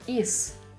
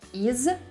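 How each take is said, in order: First: The word ends with a voiceless S sound. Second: The word ends with a voiced Z sound. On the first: "will become" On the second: "They both end with voiced consonants"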